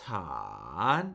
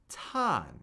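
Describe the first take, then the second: First: The pitch dips low and then rises higher. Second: The pitch starts high and falls steadily. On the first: "The pitch falls and then it rises" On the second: "it's a steady fall"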